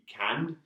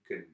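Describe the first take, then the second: First: The word is said fully with strong stress. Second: The word is said lightly with a weak vowel. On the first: "si on insiste sur le mot, on dit can" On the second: "si c'est léger, on dit can"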